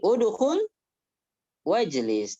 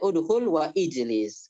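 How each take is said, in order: First: Wa links straight into jlis without a glottal stop. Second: A glottal stop separates wa and ijlis. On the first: The speaker calls it right. "Jadi udhul wajlis" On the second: The speaker calls it wrong. "jangan atau hendaknya tidak kita baca"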